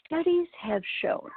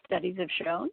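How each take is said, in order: First: Slow, weighty "studies have shown", noticeably higher and louder; magic words. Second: "Studies have shown?" repeated as a doubtful question ending in a rise; puzzled echo. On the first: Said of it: "he said the magic words". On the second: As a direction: echo it back, unconvinced. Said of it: "And I said". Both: Retold or imitated.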